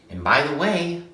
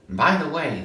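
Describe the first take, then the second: First: The phrase is said at an unhurried pace. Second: The phrase is said quickly and rushed. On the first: The speaker calls it wrong. "That sounds like him, but he doesn't say it like that" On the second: The speaker calls it right. "he's kind of rushed with it"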